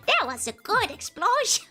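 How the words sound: It is said in a put-on elderly voice.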